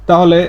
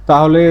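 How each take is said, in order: Both takes have the same delivery.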